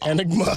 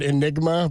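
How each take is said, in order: First: The word is garbled, sounding close to enema. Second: The word is said in its usual form. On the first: The speaker calls it wrong. "but he said enigma" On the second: The speaker calls it right. "he tried to say the word enigma"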